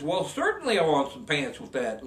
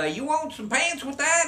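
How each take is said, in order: First: Said in the usual way. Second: High, lilting little salesman asking; little clerk voice. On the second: Acted. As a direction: pitch it way up like the tiny clerk.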